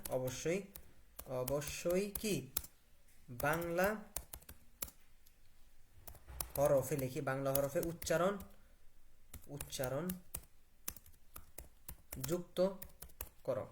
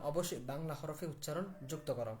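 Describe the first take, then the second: First: Halting, word by word with long gaps; slow dictation. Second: Said in the usual way. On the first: Shown as a demonstration. Teacher dictating a prompt into the app, slow word by word. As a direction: dictate each word separately, waiting in between. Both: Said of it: "ওকে, আমি কি বললাম?".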